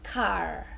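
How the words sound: The final R sound is clearly pronounced. "correct pronunciation in America would be car, and you, you really say the er sound"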